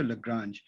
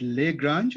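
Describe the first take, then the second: First: First syllable of Lagrange reduced to "luh"; alternative pronunciation. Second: First syllable of Lagrange said "lay"; first pronunciation. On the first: Lecturer offering the other option, Lagrange said "luh-GRANZH". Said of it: "Is it Lagrange or Lagrange?". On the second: Lecturer checking the mathematician's name, Lagrange said "lay-GRANZH". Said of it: "I hope I didn't massacre". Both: Shown as a demonstration.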